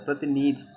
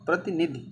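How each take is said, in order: First: One i vowel in the word is long. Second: The i vowels in the word are short. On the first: The speaker calls it wrong. "प्रतिनिधि बड़ी एक मात्रा, प्रतिनिधि गलत" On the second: The speaker calls it right. "छोटी एक मात्रा रहेगी"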